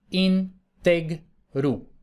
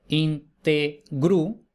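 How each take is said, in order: First: Integru said slowly with the stress on the middle syllable TEG as in entero; vulgar stress on integru. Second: Integru said very slowly, syllable by syllable, with the stress on the first syllable IN as in íntegro; classical stress on integru. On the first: Teacher to students showing the Vulgar Latin stress: integru said slowly, stressed on TEG. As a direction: stretch out integru and land on TEG. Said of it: "en una sílaba diferente tenemos la líquida".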